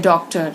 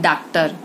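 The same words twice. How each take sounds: First: The first vowel is a rounded open 'aw' sound. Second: The first vowel is a plain open 'ah' sound. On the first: The speaker calls it right. "जैसे डॉक्टर" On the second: The speaker calls it wrong. "न कि डॉक्टर"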